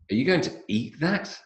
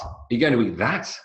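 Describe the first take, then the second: First: The word eat is stressed, sounding disbelieving. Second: The word that is stressed, sounding disgusted.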